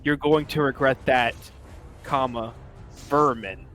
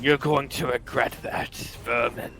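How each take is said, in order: First: It is said in a plain, clear voice. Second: It is said in an angry, gravelly voice.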